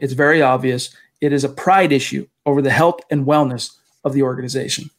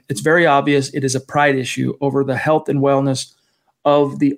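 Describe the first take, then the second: First: There is a pause after obvious. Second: It runs on without a pause after obvious.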